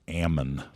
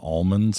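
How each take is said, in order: First: The word is said without an L sound. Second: The word is said with an L sound. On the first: This is how locals in the valley say it. "we say it here in the Central Valley" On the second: This is how people elsewhere say it. "You all know it as almonds out there"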